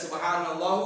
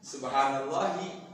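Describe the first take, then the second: First: The word ends without a final vowel. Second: The word ends with a final i vowel. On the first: The speaker calls it wrong. "Gak ada subhanallah, gak ada" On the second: The speaker calls it right. "Karena idhofah"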